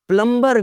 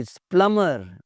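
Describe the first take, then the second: First: प्लम्बर with the b sounded; high प्लम्बर with audible b; mispronounced B. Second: प्लम्बर with no b; silent B. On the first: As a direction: say प्लम्बर as plum-bur. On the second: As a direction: say प्लम्बर as plummer. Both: Shown as a demonstration. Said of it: "कोई लफ्ज़ नहीं होता जी".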